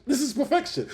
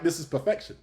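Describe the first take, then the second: First: This pitched much higher, awed; higher amazed repeat. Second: Said in the usual way. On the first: Retold or imitated. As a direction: say it again, soaring with delight. Retold reaction to Kuro scene.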